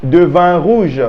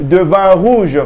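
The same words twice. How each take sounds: No difference in how they are said.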